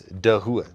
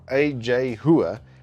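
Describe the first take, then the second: First: The name is said with a clear initial D. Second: The name is said without a clear initial D. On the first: The speaker calls it right. "it's actually a D" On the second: The speaker calls it wrong. "It's not A J Hua"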